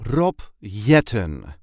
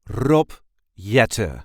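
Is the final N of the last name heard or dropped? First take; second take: heard; dropped. First: The final n of the last name is pronounced. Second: The final n of the last name is dropped.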